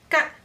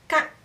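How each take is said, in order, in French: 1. La voyelle est plus courte. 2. La voyelle est plus courte.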